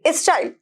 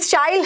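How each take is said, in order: First: It starts with an extra vowel before s. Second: It starts directly with the s sound. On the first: The speaker calls it wrong. "ना कि स्टाइल" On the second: The speaker calls it right. "ये स्टाइल है"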